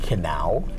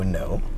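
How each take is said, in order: First: The word begins with an audible k sound. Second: The word begins with an n sound, no k. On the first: "I like to pronounce that word, Kenau" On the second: "instead of N O no"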